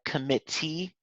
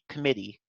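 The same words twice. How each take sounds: First: The middle T is clearly pronounced, British-style. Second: The middle T is a soft American flap. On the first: "British English tends to... actually pronounce them, like tap them instead of flap them" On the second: "It would just be like a flap"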